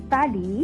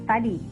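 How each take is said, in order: No difference in how they are said.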